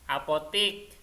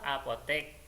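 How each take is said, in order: First: The last syllable has an i vowel. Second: The last syllable has an e vowel. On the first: This is the everyday, non-standard form. The speaker calls it wrong. "Kemudian apotik" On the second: This is the standard form. The speaker calls it right. "yang benar tulisannya itu apotek"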